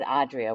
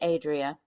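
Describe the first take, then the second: First: The name is said with an Italian pronunciation. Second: The name is said with a non-Italian pronunciation. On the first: "more the Italian pronunciation" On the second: "or it could be Adria"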